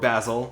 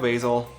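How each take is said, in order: First: It is said with a British pronunciation. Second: It is said with an American pronunciation.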